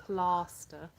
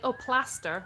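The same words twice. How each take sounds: First: "Plaster" with a long British ah; "Plaster" said the English way, broad a. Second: "plaster" in an American voice, flat a; "Oh, plaster" mimicked with an American a; kids saying plaster. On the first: Shown as a demonstration. Mom corrects her kids with a British "Plaster". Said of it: "I'm like". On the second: Mom mimics kids saying "plaster" the American way. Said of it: "they'll be like".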